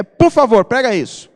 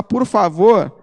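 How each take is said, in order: First: Louder, curt "Por favor" that sounds like an order; please that would be better left unsaid; rude please. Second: Said in the usual way. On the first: Shown as a demonstration. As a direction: say please as a demand. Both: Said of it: "o tom de voz muda tudo".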